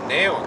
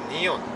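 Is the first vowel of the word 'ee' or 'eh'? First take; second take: eh; ee. First: The first vowel sounds like 'eh'. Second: The first vowel sounds like 'ee'. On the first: The speaker calls it wrong. "네온 아니라" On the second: The speaker calls it right. "이가 첫 음절 했을 때 이로 발음 돼요"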